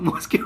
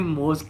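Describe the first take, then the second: First: The word ends with an extra 'kyoo' sound. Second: The word ends with a plain 'k' sound. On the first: The speaker calls it wrong. "मुझे पढ़ना नहीं आता था मैंने उसको मॉस्क्यू पढ़ा" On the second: The speaker calls it right. "मॉस्क्यू नहीं है मॉस्क है"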